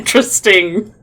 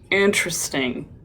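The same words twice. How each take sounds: First: It sounds sincere and genuinely curious. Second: It sounds judgmental and disapproving.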